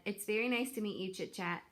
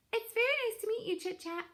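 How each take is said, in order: First: Said in the usual way. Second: Put-on much higher, small young gosling; high, bright gosling voice. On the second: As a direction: squeak it out like a shy little gosling. Gosling's greeting, high retake.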